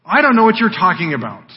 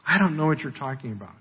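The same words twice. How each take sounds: First: Louder, higher opening denial; Peter's reply. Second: Quick, softer throwaway denial; evasive dodge. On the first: Peter answers the servant girl, louder denial. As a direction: deny knowing, punching the first words. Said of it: "responds to her". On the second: Peter dodging the servant girl's question, quick evasive aside. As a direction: brush the question off quickly and under-played. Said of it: "He just dodges the question". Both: Acted.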